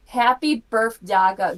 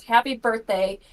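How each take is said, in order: First: "birth daga" sounded out slowly as written; "birthday" garbled into "birth daga"; misspelled drunk text. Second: Said in the usual way. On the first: Retold or imitated. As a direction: read "birth daga" with the typo intact, slow and loud. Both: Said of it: "she spelled everything wrong".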